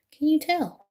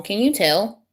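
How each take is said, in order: First: Higher, wry echo of the question; playful higher echo; higher teasing repeat. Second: Said in the usual way. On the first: Shown as a demonstration. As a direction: tease it back at them.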